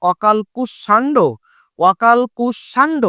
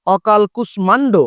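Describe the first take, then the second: First: Slow অকাল কুষাণ্ড, ম dropped, ষ doubled and nasal; অকাল কুষাণ্ড: no ম, long nasal ষ; Bangla pronunciation. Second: Slow অকাল কুষ্মাণ্ড with the ম sounded; অকাল কুষ্মাণ্ড: keep the ম, say it slowly; Sanskrit pronunciation. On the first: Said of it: "Bangla ব্যাকরণে উচ্চারণ হচ্ছে". (ধীরে, ম বাদ দিয়ে বাংলা উচ্চারণ) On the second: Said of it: "যখন অকাল কুষ্মাণ্ড বলবো". (ধীরে, ম রেখে সংস্কৃত উচ্চারণ) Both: Shown as a demonstration.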